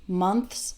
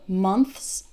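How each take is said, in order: No difference in how they are said.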